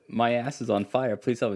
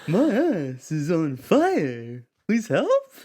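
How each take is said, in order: First: It is said in the speaker's ordinary accent. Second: It is said in an imitation of a singer's voice. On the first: "So I said" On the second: "You want me to do [name]?"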